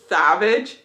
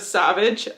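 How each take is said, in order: First: The first sound is lisped, like a th. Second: The first sound is a plain s. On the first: "he has a bit of a lisp" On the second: "instead of Savage"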